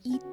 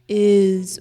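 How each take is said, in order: First: The word ends without a buzzing z sound. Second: The word ends in a buzzing z sound. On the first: The speaker calls it wrong. "or eat" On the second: The speaker calls it right. "is with a Z sound"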